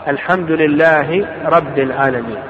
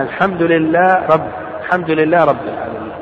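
First: Said in the usual way. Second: "لله رب" run together, the final hi of لله swallowed into the ر; merged letters. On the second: Shown as a demonstration. Teacher showing students a faulty Fatiha recitation, "لله رب" merged as lillar-rabb. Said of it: "إذا أدغم لها برا".

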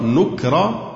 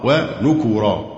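First: نكرا with a vowelless k, "nuk-ra"; sukun on kaf. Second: ونكورا with a u after the k, "wa-nu-ku-ra"; damma on kaf. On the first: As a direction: say نكرا in two syllables, k closing the first. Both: Shown as a demonstration. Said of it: "بسكون الكاف وضمها".

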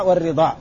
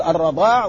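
First: والرضاع said "war-ridaa", with an i after the r; short i in والرضاع, "ri-"; kasra on ra. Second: الرضاع said "ar-radaa", with an a after the r; fatha on ra. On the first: (والرضاع بكسر الراء) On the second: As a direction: open first vowel in الرضاع, "ra-". (الرضاع بفتح الراء) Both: Shown as a demonstration. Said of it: "هو بفتح الراء وكسرها".

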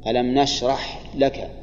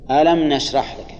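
First: ألم نشرح لك read slowly, the ح of نشرح held still with no vowel; slow demonstration. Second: Said in the usual way. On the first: Shown as a demonstration. Teacher repeats the verse to show the silent ح, slowly. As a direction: spell out نشرح slowly so the sukun on the ح is heard. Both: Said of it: "سكن الحاء".

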